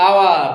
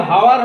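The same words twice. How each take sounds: First: আওয়ার with a silent h; correct pronunciation. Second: হাওয়ার with a sounded h; wrong pronunciation. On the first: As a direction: open আওয়ার straight on the vowel. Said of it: "কি হবে?". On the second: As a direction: start হাওয়ার on a clear h sound. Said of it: "হাওয়ার হবে না". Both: Shown as a demonstration.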